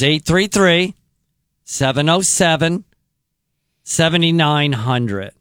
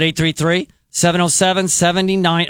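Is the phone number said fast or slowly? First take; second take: slowly; fast. First: The number is said slowly. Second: The number is said fast.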